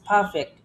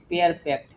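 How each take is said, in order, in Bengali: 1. প্রথম সিলেবলটি 'per' এর মতো শোনায়। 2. প্রথম সিলেবলটি 'peer' এর মতো শোনায়। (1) "পি আর মানে হচ্ছে পার" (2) "পি ই আর মানে পিয়ার"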